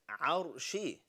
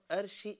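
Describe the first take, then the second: First: The word begins with a deep throat sound. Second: The word begins with a plain vowel. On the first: The speaker calls it right. "it's arshi" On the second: The speaker calls it wrong. "It's not arshi"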